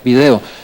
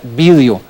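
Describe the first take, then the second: First: The stress is on the second syllable. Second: The stress is on the first syllable. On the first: The speaker calls it wrong. "ya no se tiene que pronunciar video" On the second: The speaker calls it right. "se tiene que pronunciar vídeo y además con la tilde en la i"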